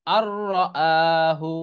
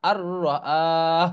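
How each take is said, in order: First: Slow "আহু" with final hu voiced; continued reading ending. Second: Long "আহ" closed on a breathed h; stopping pronunciation. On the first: Teacher giving the first reading, full hu in "আহু". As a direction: draw out "আহু" and sound the hu. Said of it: "অথবা". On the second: Teacher showing how one may stop, h closing "আহ". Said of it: "এরকম থামা যাবে". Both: Shown as a demonstration.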